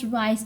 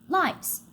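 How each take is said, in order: First: The word begins with an R sound. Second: The word begins with an L sound.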